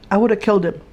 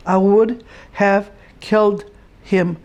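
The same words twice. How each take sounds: First: Said in the usual way. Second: Slower, each word weighed: I would have killed him; mother repeating that she would have killed him, slowly and firmly; slow emphatic repeat. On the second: Real, not acted.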